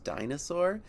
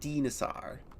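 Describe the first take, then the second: First: It uses the usual English pronunciation. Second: It uses a Greek-style pronunciation. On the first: The speaker calls it wrong. "not technically pronounced dinosaur" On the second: The speaker calls it right. "it is intended to be pronounced dinosaur"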